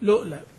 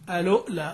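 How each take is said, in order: First: The word begins directly with the l sound. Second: The word begins with an 'a' vowel before l. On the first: "اللام متحركة مش محتاجة همزة الإيه الوصل" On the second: "تبدأ بهمز الوصل"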